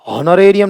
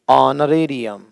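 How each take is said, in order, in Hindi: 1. इस शब्द की शुरुआत 'h' की ध्वनि से होती है। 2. इस शब्द की शुरुआत स्वर की ध्वनि से होती है। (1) "नहीं" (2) "एच का उच्चारण नहीं होता"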